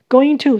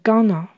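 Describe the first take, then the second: First: It is pronounced in full as two words. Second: It is reduced and run together into one word.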